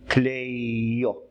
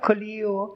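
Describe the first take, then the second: First: The first vowel is the diphthong 'ei'. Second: The first vowel is a plain 'i'. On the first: This is the original form of the name. "вона взагалі Клейо" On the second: This follows the modern Greek manner. "на новогрецький манер Кліо"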